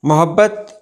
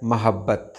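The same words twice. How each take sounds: First: मोहब्बत with "o" after m; wrong pronunciation. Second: मोहब्बत said with "a" after m; correct pronunciation. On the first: Teacher showing how people often misread, mispronounced. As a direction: say "mo-hab-bat" for मोहब्बत. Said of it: "अक्सर लोग गलत पढ़ते हैं". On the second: Teacher giving viewers the right word, correctly pronounced. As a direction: say "ma-hab-bat" for मोहब्बत. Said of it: "सही लफ्ज़ है". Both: Shown as a demonstration.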